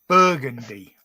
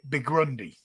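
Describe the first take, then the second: First: The sounds come in their usual order. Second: The middle sounds are jumbled and swapped. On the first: The speaker calls it right. "Now I've got to get this right" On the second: The speaker calls it wrong. "I always called it Bigrundy"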